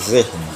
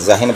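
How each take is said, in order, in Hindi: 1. h और n के बीच कोई स्वर नहीं बोला जाता। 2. h और n के बीच एक स्वर बोला जाता है। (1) "नून साकिन है" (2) "जहन बोलते हैं लोग"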